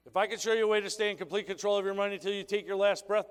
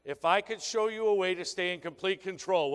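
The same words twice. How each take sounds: First: Fast recap of the pitch. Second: Said in the usual way. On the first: Shown as a demonstration. Trainer rereading the pitch quickly to the audience. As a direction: rattle the question off fast. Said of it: "what's the most important word there". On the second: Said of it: "what's the most important word".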